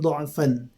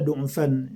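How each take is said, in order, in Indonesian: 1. Kata itu diucapkan dengan vokal 'a'. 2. Kata itu diucapkan dengan vokal 'u'.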